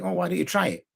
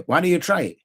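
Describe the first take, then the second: First: A real open invitation to try; honestly wondering if they'd try it; inquisitive. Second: A challenge that means don't you dare; threatening. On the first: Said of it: "in an inquisitive way". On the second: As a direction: warn them off with a dare. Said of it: "saying in a threatening way". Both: Shown as a demonstration.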